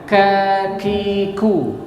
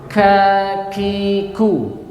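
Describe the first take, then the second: No difference in how they are said.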